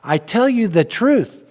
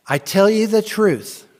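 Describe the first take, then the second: First: Slow, louder and higher, "truth" hit hard; emphatic quote. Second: Slow, higher, louder, "truth" leaned on; emphatic quote. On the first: Preacher voicing Jesus emphasizing to the disciples. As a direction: deliver it slow with full weight. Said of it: "Jesus is emphasizing like that". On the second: Preacher voicing Jesus to the disciples, slow and emphatic. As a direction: give Jesus's words slow weight. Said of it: "it makes it more emphatic". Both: Retold or imitated.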